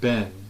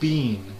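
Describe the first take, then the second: First: The vowel is short, like in 'ben'. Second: The vowel is long, like in 'bean'.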